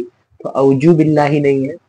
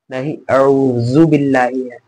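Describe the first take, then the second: First: औजु with a hard j, slow; wrong j sound. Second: औजु with a soft th-like z, slow; correct soft z. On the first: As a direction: say औजु like jeem, marked wrong. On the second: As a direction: say औजु softly with the dhaal sound. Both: Shown as a demonstration.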